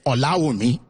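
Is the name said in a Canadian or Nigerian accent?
Nigerian. It is said in a Nigerian accent.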